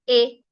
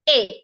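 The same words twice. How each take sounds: First: The vowel is said on a flat pitch. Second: The vowel is said with a rising pitch. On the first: The speaker calls it wrong. "Don't say A" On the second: The speaker calls it right. "Please use a rising tone"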